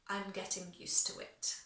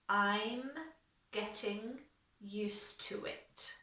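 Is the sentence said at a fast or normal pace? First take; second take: fast; normal. First: The sentence is said at a faster pace. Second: The sentence is said at a normal pace.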